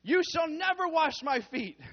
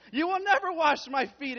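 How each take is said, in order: First: YOU stressed, loud and high; "You" hit hard in refusal; 1 Peter refusing. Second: NEVER stressed, loud and high; 1 Peter refusing. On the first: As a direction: protest with weight on "You". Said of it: "And Peter says to him". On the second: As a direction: punch the word "never". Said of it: "he says this". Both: Acted.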